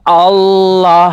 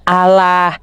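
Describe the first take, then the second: First: The word is said with a heavy, thick sound. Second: The word is said with a light, thin sound. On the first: The speaker calls it right. "tafkhim, tebal... tapi Allah yang betul" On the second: The speaker calls it wrong. "bukan Allah"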